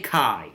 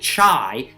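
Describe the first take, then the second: First: It does not sound like the drink chai. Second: It sounds like the drink chai. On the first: The speaker calls it right. "Say chi" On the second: The speaker calls it wrong. "Don't say chai. Chai is a delicious smoky beverage"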